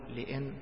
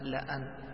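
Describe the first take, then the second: First: The vowel after the first consonant is i. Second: The vowel after the first consonant is a. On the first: The speaker calls it wrong. "فلا تكسر هذه اللام، ما تقول لإن لا" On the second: The speaker calls it right. "وإنما لأن بفتح اللام"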